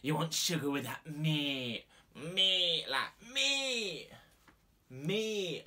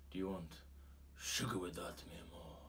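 First: High, drawn-out Scouse squawk; exaggerated Liverpool accent, pitch leaping on the last word. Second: Put-on soft, flirtatious Spanish accent; sexy Spanish accent. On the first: Unsexy Steve from Liverpool offers sugar, squawky Scouse accent. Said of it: "from Liverpool". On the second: Sexy barista flirts with a flustered customer, soft Spanish accent. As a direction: purr it low in a Spanish accent, trailing off. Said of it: "as sexy as a Spanish accent".

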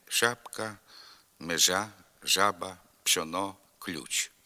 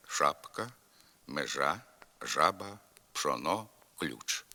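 First: Southwestern dialect softening of ш, ж, ч in пшоно, ключ; softened hushing consonants. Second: Hard, unpalatalized ш and ж in шапка, межа, жаба; standard hard sibilants. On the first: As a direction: say шапка like «шяпка», межа like «межя». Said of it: "шиплячі звуки пом'якшуються". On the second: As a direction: keep ш, ж, ч hard in пшоно, ключ. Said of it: "Слід вимовляти". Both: Shown as a demonstration.

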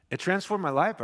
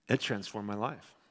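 First: Transformed lifted higher with a rising tune; emphatic repeat. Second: Said in the usual way. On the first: Shown as a demonstration. Preacher repeating his testimony to the congregation, emphatic. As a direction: punch transformed up the second time. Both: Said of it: "repeated with emphasis".

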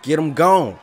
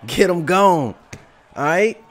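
First: Shouted, loud and high; hype shout. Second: Higher, louder hyped GOAT boast. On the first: Real, not acted. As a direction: yell it out over the knockout. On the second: Pretend. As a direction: boom it out like the champ. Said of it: "Goat voice".

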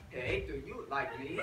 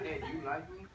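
First: "Hey, do you like me?" with swooping, exaggerated pitch on each word; exaggerated tones. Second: "Hey, do you like me?" softly, all on one pitch; deadpan "Hey, do you like me?" with no rise or fall; monotone. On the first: Mock language teacher showing off tones, "Hey, do you like me?" in swooping tones. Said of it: "there's, like, a bunch of different tones". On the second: Language teacher advising a shy asker, "Hey, do you like me?" in monotone. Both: Shown as a demonstration.

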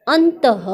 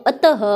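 First: अंतः said loudly as "an-ta-ha", with an n; loud reading drill, अंतः with a drawn-out final "ha"; misread with n. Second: अतः said loudly as "a-ta-ha", no n; teacher's firm correction to अतः, open "a" at the start; corrected, no n. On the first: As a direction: put a nasal n in अंतः before the "ta". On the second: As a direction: drop the nasal, read अतः with a clear final "ha". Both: Shown as a demonstration. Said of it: "अंत नहीं".

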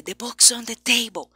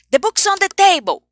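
First: Hushed, breathy under-the-breath read; whispering. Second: Quick, run-together native English; fast native speech. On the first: A teacher showing a whispered sentence. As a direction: whisper it to the student. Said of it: "falar sussurrando pra você". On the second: A teacher mimicking a foreigner talking fast. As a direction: rattle it off like a native speaker. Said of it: "chegar um estrangeiro ... e falar rápido". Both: Shown as a demonstration.

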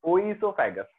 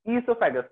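First: Oesophagus said as "oisofagus", starting with an O sound; wrong pronunciation. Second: Esophagus said as "isopagus", E sound at start, O silent; right pronunciation. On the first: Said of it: "ना, ना कि". (oesophagus का गलत उच्चारण, शुरू में "ओ") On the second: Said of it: "but pronunciation देखो तो क्या है?". (esophagus का सही उच्चारण, शुरू में "ई") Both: Shown as a demonstration.

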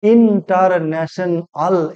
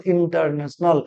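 First: ইন্টারন্যাশনাল slowly as ইন, টার, ন্যা, শন, আল; polysyllable split. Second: Said in the usual way. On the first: Shown as a demonstration. Teacher showing polysyllables, ইন্টারন্যাশনাল slowly syllable by syllable. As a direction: break ইন্টারন্যাশনাল into separate measured beats. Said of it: "তিনের বেশি syllable". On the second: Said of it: "এই হলো syllable".

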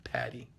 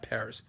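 First: Patty for Paris, very soft, no final s; mock French pronunciation. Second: Paris said softly with the final s sounded; English pronunciation. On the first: Coach correcting viewers on the name, soft French-style Patty. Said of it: "We say Patty". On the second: Coach rejecting the English name for viewers, soft English Paris with s. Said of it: "not Paris". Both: Shown as a demonstration.

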